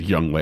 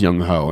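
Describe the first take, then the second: First: The second syllable sounds like 'way'. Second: The second syllable sounds like 'ho'. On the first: The speaker calls it right. "that's how you pronounce it, is Young Wei" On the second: The speaker calls it wrong. "I always thought it was Young Ho"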